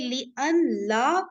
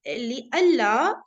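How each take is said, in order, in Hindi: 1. n को la से पहले अलग से बोला जाता है। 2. n साइलेंट है और l डबल हो जाता है।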